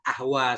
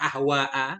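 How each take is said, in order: First: The final vowel is short, with no glottal stop. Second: The final vowel is long, ending in a glottal stop. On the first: "dengan kasar tanpa hamzah" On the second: "dengan mad kita baca pakai hamzah"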